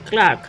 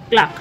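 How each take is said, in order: First: The r sound is clearly pronounced. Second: The r sound is left silent. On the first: The speaker calls it wrong. "এই ক্লার্ক উচ্চারণটা কি ঠিক করলাম? না, ভুল করলাম" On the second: The speaker calls it right. "এই আর উচ্চারণটা কিন্তু হবে না"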